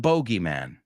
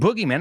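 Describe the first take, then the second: First: The first syllable has an 'oh' vowel. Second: The first syllable has an 'oo' vowel. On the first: This is the British form. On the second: This is the American form.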